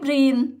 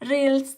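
First: The word is pronounced with Thai sounds. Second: The word is pronounced with English sounds. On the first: "ถ้าเราอ่านเสียงเป็นออกเสียงเป็นภาษาไทย" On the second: "ถ้าออกเสียงเป็นภาษาอังกฤษมันก็จะเป็น"

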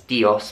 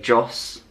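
First: The word is said in two syllables. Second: The word is said in one syllable. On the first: This is how Spanish speakers say it. "In Spanish, they will say it as Dios" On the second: This is how Filipinos say it. "they'll just say it as kind of one syllable"

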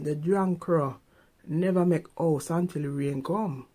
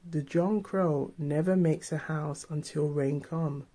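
First: It is said in a Jamaican accent. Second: It is said in a standard accent.

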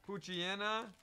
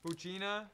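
First: The name is said with a y-like glide. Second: The name is said without a y-like glide. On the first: "you really pronounce the Y" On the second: "That's what I've always said, Puccina"

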